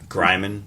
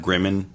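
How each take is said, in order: First: The first vowel is long. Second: The first vowel is short. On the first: "it makes it a long vowel sound" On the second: "It's either Gryman or Grimmin"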